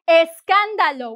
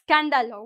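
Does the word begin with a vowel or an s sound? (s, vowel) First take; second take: vowel; s. First: The word begins with an e vowel sound. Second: The word begins directly with an s sound. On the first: The speaker calls it right. "We say eh with the el" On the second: The speaker calls it wrong. "We don't say scándalo. We don't start with s"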